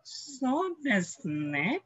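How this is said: It sounds doubtful and unconvinced. The speaker doubts what was said. "Parang hindi naman"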